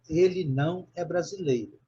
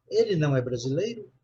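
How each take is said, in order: First: "Ele não é brasileiro" as a statement, falling at the end; negative statement intonation. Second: "Ele não é brasileiro" as a question, swinging up on "brasileiro"; questioning intonation. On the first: Teacher models "Ele não é brasileiro" for a student, negative statement with falling tune. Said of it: "uma frase agora na negativa".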